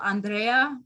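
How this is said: The name is said with a Spanish pronunciation. "or in Espanol"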